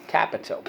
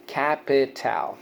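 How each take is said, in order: First: Said in the usual way. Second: Slow CAP-IH-TAL, last vowel as in pal; syllable by syllable. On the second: Shown as a demonstration. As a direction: sound out "capital" in three beats with a full A in TAL. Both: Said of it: "so let's go".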